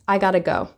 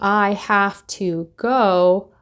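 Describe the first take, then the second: First: It is reduced to gotta. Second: It is said in full as have to. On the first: "a lot of the times English speakers will say" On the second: "instead of saying"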